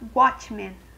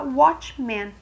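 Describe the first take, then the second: First: It is pronounced with Spanish sounds. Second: It is pronounced with English sounds. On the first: "E em espanhol vai ficar watchman" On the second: "Em inglês ... a gente vai falar watchman"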